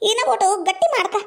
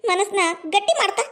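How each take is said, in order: First: Laughing. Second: Said in the usual way. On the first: Acted.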